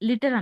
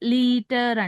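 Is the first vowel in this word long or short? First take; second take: short; long. First: The first vowel is a short i. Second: The first vowel is a long ee. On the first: The speaker calls it wrong. "అనము" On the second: The speaker calls it right. "లీటర్ long ఈ sound పలుకుతాం"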